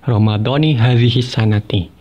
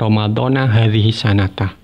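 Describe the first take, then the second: First: Ramadhan ends in i, and sanati ends in i. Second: Ramadhan ends in a, and sanatah ends in ah. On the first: The words form a possessive phrase meaning Ramadan of this year. The speaker calls it right. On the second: The phrase is broken, with this year as a time adverb. The speaker calls it wrong.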